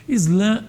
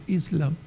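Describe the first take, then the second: First: "Islã" said the Portuguese way, ending on a nasal vowel; Portuguese form. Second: "Islam" said as the Arabic original; Arabic form. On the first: Lecturer gives the Portuguese form of the word, "Islã" in Portuguese pronunciation. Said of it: "aportuguesamento da palavra árabe Islam". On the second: Lecturer cites the original Arabic word, "Islam" in Arabic-style pronunciation. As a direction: say "Islam" as the foreign source word, closing on M. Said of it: "da palavra árabe Islam". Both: Shown as a demonstration.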